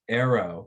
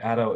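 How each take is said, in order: First: The r is a usual English r. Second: The r is a quick Korean-style tap. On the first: "instead of" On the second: "represent this R sound, with this ara sound"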